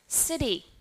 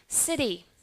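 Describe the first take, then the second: First: The middle t is a soft d-like flap. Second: The middle t is a soft d-like flap.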